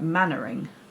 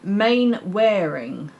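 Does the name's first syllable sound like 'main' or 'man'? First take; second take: man; main. First: The name is said short, starting 'man'. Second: The name is said as spelled, starting 'main'. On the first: The speaker calls it right. "It was said like Mannering" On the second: The speaker calls it wrong. "It looks like Ma- Mainwaring when you read it, but that's not how it was said"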